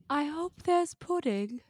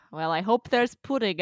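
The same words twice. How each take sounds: First: Dreamy Luna, pitched high and slow; better Luna impression. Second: Light dreamy Luna voice; a hint of Luna, lightly voiced; Luna impression. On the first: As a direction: float it out airy and faraway. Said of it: "do your better Luna impression". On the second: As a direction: drift through it like a daydreamer. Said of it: "That's my Ivana Lynch impression".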